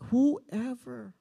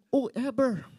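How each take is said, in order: First: Said in the usual way. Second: Kapampangan "whoever" with the H dropped; joking Kapampangan accent, B for V in "whoever". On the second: Acted. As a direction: say "whoever" as "oo-eber", Kapampangan style. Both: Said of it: "if you are Kapampangan".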